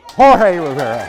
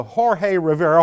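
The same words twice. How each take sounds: First: Booming emcee name call, louder; grand ringmaster-style name reveal; announcer intro. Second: Said in the usual way. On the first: Shown as a demonstration. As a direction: announce the name like a host bringing someone on. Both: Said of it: "hold your applause".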